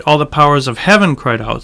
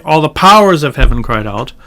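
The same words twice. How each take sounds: First: "heaven" carries the main emphasis; stress on heaven. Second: "powers" punched as the main word; stress on powers. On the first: Teacher showing the natural reading, stressing "heaven". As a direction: put the weight on "heaven". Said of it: "you do say". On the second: Teacher showing what not to say, stressing "powers". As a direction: put the weight on "powers". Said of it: "you don't say". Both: Shown as a demonstration.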